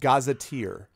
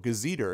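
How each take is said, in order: First: The word ends with a long 'teer' sound. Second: The word ends with a short 'ter' sound. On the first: The speaker calls it right. "So it's pronounced gazetteer" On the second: The speaker calls it wrong. "I had never heard the pronunciation as a kid"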